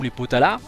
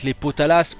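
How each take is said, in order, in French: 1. Le S final est muet. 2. Le S final est prononcé. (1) "Je sais pas si on prononce le S" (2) "Je sais pas si on prononce le S"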